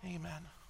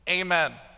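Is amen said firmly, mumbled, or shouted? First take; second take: mumbled; firm. First: It is mumbled quietly and unclearly. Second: It is said firmly with conviction.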